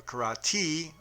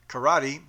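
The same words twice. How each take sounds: First: "karate" drawn out slowly, ending in a long "tee"; slow "karate" with a stretched final "ee" sound; Okinawan pronunciation. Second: "Karate" said briskly and louder, short final syllable; "Karate" in one quick, emphatic go, ending short; Japanese pronunciation. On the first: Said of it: "Okinawan pronunciation". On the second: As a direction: say "Karate" the Japanese way, without stretching the end. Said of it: "Japanese pronunciation". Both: Shown as a demonstration.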